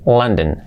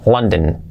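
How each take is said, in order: The two takes are said the same way.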